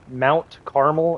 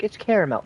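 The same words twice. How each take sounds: First: Carmel said as two syllables, CAR-mel; correct name. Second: Caramel said in three syllables, CA-ra-mel, as a know-it-all; mock correction. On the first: Shown as a demonstration. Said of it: "the town is literally called Carmel". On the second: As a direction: imitate the listeners saying Caramel with three syllables. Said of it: "before y'all are like".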